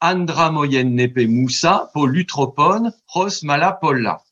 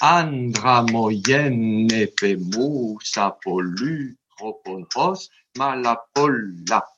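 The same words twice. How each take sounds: First: Vowels have even length in a French manner. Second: Long and short vowels give a dactylic rhythm. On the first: "si je vous le dis à la française" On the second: "si je mets les durées des voyelles"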